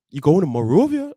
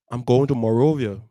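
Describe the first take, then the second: First: Louder, startled question; mom's surprised echo. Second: Said firmly to mom, a bit louder; a teen declaring he is leaving; bold announcement. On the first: Mom startled her son is leaving, louder question. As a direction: echo it back in mild disbelief. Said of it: "My mom like". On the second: Son telling mom he's leaving, blurted out. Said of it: "I just jump up and be like". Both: Retold or imitated.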